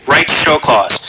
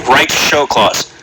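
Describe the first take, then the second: The two takes are said the same way.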